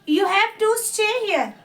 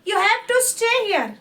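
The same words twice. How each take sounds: The two takes are said the same way.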